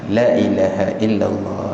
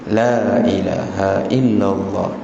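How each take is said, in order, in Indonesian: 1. Vokal panjang dipendekkan. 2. Vokal panjang dibaca panjang.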